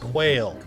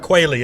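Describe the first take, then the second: First: It is said as one syllable, rhyming with 'rail'. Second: It is said as two syllables, ending in 'ee'.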